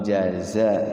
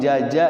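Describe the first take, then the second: First: The middle consonant is a Z sound. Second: The middle consonant is a J sound. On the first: The speaker calls it right. "Padahal jaza mang jaza" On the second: The speaker calls it wrong. "karena terbiasa dengan lidah itu akhirnya memang jaja"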